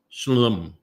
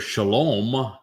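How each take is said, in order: First: The word is said without the O sound. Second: The word keeps its O vowel sound. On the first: The speaker calls it wrong. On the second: The speaker calls it right.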